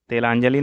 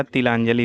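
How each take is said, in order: First: तिलांजलि opening on "te"; wrong pronunciation. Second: Said in the usual way. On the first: Shown as a demonstration. Teacher shows students the error, तिलांजलि with e for i. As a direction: say तिलांजलि as "telanjali". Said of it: "नहीं होता है". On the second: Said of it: "होता है".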